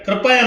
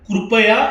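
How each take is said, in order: First: The first syllable has a plain 'ra' sound. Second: The first syllable has a 'ru' sound. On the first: The speaker calls it wrong. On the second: The speaker calls it right.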